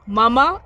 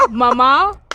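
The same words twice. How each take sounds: First: MAMA louder on the first syllable; boob stress. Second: MAMA slow, stressed on the second syllable; mother stress. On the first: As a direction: demonstrate "Mama" with the stress up front. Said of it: "a boob". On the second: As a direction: demonstrate "mama" for mother, lengthened ending. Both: Shown as a demonstration.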